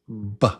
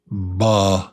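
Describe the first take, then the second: First: The b sound stands alone, short and quick. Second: A vowel follows the b sound. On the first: The speaker calls it right. "but just B" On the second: The speaker calls it wrong. "Not B"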